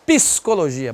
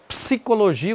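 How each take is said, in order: First: "psicologia" opened with pee-see, vowel after the p; extra I inserted. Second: Said in the usual way. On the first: Shown as a demonstration. Teacher mimicking the Brazilian habit, extra I in "psicologia". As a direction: break the ps of "psicologia" with an ee. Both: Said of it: "Bota I em tudo".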